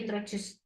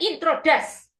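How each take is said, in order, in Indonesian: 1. Suku kata terakhir terdengar seperti 'joos'. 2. Suku kata terakhir terdengar seperti 'das'. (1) "ingat-ingat jus alpukat itu loh" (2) "bukan introdas"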